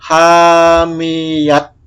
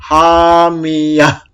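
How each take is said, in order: First: The word ends with a t sound. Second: The word ends with an h sound. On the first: The speaker calls it wrong. "Jadi jangan dibaca hamiyat" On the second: The speaker calls it right. "Ini diganti menjadi hamiyah"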